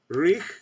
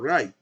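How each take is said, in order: First: The word is said like 'rig', ending in g. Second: The word is said like 'right', ending in t. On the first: The speaker calls it wrong. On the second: The speaker calls it right.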